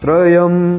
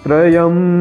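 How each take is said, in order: Both takes have the same delivery.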